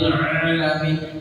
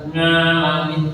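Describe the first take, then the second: First: The word starts with a throat sound. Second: The word starts with an ng sound. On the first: The speaker calls it right. "sing asli" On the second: The speaker calls it wrong. "dibaca ngalamin keliru"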